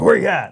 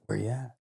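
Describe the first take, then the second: First: High, loud "where are you" imitation; punchy raised-voice quote; retold calling out. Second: Hushed, much softer question; retold whisper. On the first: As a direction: call it out, pitched up and louder. Retold call to locate friend. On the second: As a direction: ask it under your breath, as if retelling.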